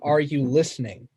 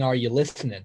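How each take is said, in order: First: The ending of listening is fully and abruptly pronounced. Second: The ending of listening is softened, without a hard g. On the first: This is an unusual choice for this song. "[name] chooses to pronounce the ing and make it more of a, I don't know, abrupt" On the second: This is how most versions say it. "traditionally it's uh"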